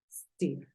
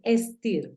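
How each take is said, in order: First: The word begins directly with the s sound. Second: A short vowel comes before the s sound. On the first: The speaker calls it right. "en este caso es steer" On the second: The speaker calls it wrong. "No es steer, porque el sonido en inglés ap aparece desde la S"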